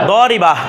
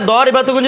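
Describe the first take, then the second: First: The word stops short on a final vowel. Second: The word is said in full with its ending.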